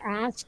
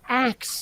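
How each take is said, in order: First: The word ends with s then k. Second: The word ends with k then s. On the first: The speaker calls it right. "It's ask" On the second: The speaker calls it wrong. "if you say axe instead of ask, you're just fucking wrong"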